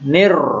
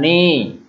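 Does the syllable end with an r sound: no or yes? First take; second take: yes; no. First: The syllable ends with an r sound. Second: The syllable ends without an r sound. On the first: The speaker calls it right. "nir, jangan ni" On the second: The speaker calls it wrong. "jangan ni"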